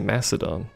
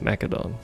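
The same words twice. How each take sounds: First: The middle consonant is a soft s sound. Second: The middle consonant is a hard k sound. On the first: "Like with like a, a C. Or I guess there'll be like an S sound" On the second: "Like a K sound"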